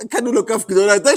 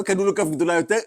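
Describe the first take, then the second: First: "קנו לו כף גדולה יותר" faster, louder, rising on יותר; emphatic repeat. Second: Said in the usual way. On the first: Shown as a demonstration. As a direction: punch it out, quicker, rising on יותר. (חזרה מודגשת, מהירה ורמה) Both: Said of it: "repeated with emphasis".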